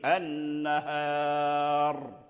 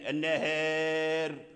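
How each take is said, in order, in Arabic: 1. الراء الأخيرة مفخّمة، بعد حركة مفتوحة. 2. الراء الأخيرة مرقّقة، بعد حركة مائلة. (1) "فيقفوا عليها بالتفخيم النهار" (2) "النهار في رواية ورش"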